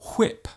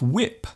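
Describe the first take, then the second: First: It starts with a strong breathy h sound. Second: It starts with no breathy h sound. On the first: The speaker calls it wrong. "they might say whip" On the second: The speaker calls it right. "instead of whip"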